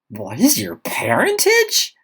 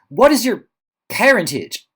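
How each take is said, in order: First: It sounds incredulous and mortified at herself. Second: It sounds flustered and awkward, at a loss.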